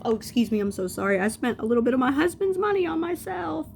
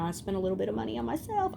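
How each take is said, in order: First: Loud, rising high-pitched self-correction; mock apology. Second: Said in the usual way. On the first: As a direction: sarcastically overdo the correction, climbing in pitch. Mock apology, corrects to husband's money.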